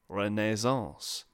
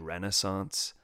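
First: It is said the way the French say it. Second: It is said in the speaker's own American way.

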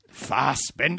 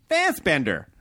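First: The stress is on the second syllable. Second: The stress is on the first syllable.

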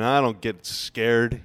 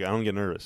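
First: It sounds boastful, chest puffed out. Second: It sounds calm and matter-of-fact.

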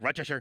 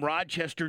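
First: It is said with a local native pronunciation. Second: It is said with a non-local pronunciation. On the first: The speaker calls it right. "if you're a native, you're supposed to say" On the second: The speaker calls it wrong. "I know I'm not saying it right"

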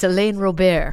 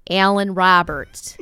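First: The name is said without a Chicago Southside accent. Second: The name is said with a Chicago Southside accent. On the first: The speaker calls it right. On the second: The speaker calls it wrong.

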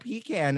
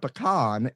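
First: It sounds like 'pee' plus 'can'. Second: It sounds like 'puh-kahn'. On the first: It names a can for urinating in. "a pecan is a can that you urinate in" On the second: It names the nut. "a pecan is a nut"

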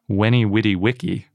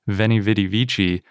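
First: The words use w sounds and a hard k. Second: The words use v sounds and a soft c. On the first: This is the likely original Latin pronunciation. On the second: This is the usual modern pronunciation.

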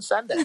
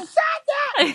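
First: It is said in a calm, relaxed tone. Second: It is yelled loudly with high energy. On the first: The speaker calls it wrong. "You're not supposed to say send it in a relaxed tone" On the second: The speaker calls it right.

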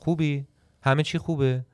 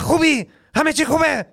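First: It is said in a lazy, relaxed way. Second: It is said in an energetic, exaggerated way.

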